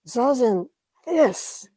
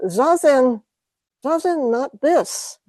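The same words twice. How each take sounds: First: Higher mock Japanese accent, "Zazen, this" falling; a teacher's Japanese accent, pointing at "this"; light imitation of a Japanese accent, high on "this". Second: Higher mock Japanese accent, slow on "Zazen, not this"; lightly imitated Japanese accent, falling on "Zazen". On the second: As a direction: imitate a Japanese teacher, dropping each "Zazen". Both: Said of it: "he had a pretty heavy Japanese accent".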